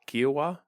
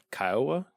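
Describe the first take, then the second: First: Kiowa said as KEE-wah, rising; second name guess. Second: Kiowa said as KYE-uh, rising and unsure; unsure name guess. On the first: Recalling the fort's name again, Kiowa as KEE-wah rising. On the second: Trying to recall the fort's name, Kiowa as KYE-uh with a rise. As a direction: try Kiowa as KYE-uh, questioning. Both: Real, not acted. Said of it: "the, what was it called?".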